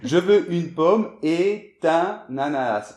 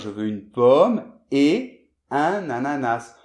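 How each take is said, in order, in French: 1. Le t de 'et' se lie à 'un'. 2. Le mot 'et' reste séparé de 'un'. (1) "une erreur typique" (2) "on doit dire"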